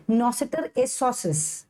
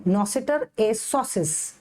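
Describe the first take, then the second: First: Nocitur esosis said slowly; first take of the term. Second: Nocitur esosis said again very slowly and evenly; repeat of the term. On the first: Teacher introduces the next term slowly. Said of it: "अगला है nocitur esosis". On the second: Teacher repeats the term slowly for students. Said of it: "उसके बाद है nocitur esosis". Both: Shown as a demonstration.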